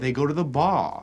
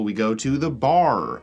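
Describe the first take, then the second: First: The final R in bar is dropped. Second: The final R in bar is pronounced.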